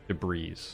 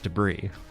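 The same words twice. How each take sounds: First: The final S sound is pronounced. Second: The final S sound is silent. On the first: The speaker calls it wrong. "I absolutely pronounced the S" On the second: The speaker calls it right. "It's debris"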